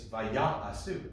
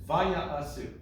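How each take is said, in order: First: The secondary stress falls on the second syllable. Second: The secondary stress falls on the first syllable. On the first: The speaker calls it wrong. "you might think it's vaya'asu" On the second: The speaker calls it right. "specifically on the va, not on the ya"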